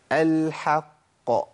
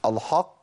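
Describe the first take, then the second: First: Slow "الحق" with thin vowel after the h; drawn-out correct "الحق", h unthickened; light ha, heavy qaf. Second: "الحق" with dark back vowel after the h; quick, lower "الحق", thickened from the h; wrong model: heavy "haqq" in "الحق"; wrongly heavy ha. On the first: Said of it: "لكن عندنا في القران حا". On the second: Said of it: "لكن ما اقولش". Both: Shown as a demonstration.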